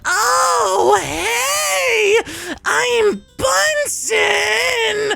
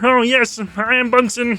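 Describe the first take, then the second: First: A strained, shrill, operatic old-woman voice. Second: A relaxed, fun, silly monster voice.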